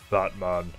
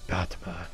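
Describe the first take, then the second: First: It is a very deep, clear voice. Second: It is a deep, raspy voice.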